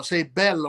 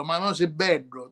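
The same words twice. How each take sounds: First: "bello" said with a clear single L, bEL-lo; standard bello. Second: "bello" said as "beddo", the L turned into a retroflex D; dialect bello. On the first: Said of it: "someone says bello". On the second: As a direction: say "bello" like a Sicilian mother, "beddo". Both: Shown as a demonstration.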